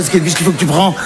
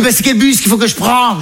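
First: Exasperated echo. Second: Higher, naive mum asking; put-on high maternal query; mother's voice. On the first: Acted. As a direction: throw the question back in your own voice. Son echoes mother's question back. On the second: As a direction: impersonate a clueless mother's question. Mother's naive question, acted out.

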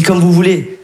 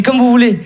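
First: Said in the usual way. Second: Raised polite take. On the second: Retold or imitated. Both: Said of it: "je dis".

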